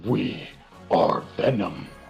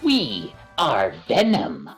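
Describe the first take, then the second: First: It is said in a deep, monstrous voice. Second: It is said in a light, unmonstrous voice. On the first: The character sounds like a monster. The speaker calls it right. "big hulking monster that goes like" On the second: The character no longer sounds like a monster. The speaker calls it wrong. "didn't even have the deep voice"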